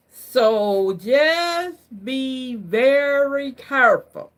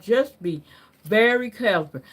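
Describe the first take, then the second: First: Slow and drawn out, every word weighed; slow it right down like a caution; slow warning. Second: Said in the usual way. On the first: Shown as a demonstration. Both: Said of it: "Can I say it like that?".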